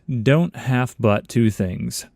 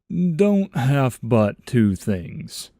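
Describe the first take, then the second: First: It is said in the speaker's natural voice. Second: It is said in a put-on character voice.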